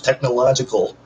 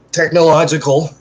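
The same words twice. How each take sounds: First: Said in the usual way. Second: "technological" said again clearly and a bit louder, every syllable tech-no-lo-gi-cal; careful re-say. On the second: Shown as a demonstration. Proud of a big word, re-saying "technological" carefully and clearly. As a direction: land "technological" cleanly this time, a touch louder. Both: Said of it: "just to say it again".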